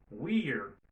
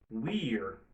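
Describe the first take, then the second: First: We are is shortened into one syllable. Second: We are is shortened into one syllable.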